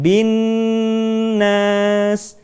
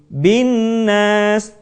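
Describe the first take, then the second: First: The doubled n is held with a long nasal. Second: The doubled n is rushed and cut short. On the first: The speaker calls it right. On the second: The speaker calls it wrong. "dengan tergesa-gesa"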